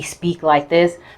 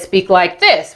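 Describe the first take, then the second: First: It is said at a normal, quiet volume. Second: It is said very loudly.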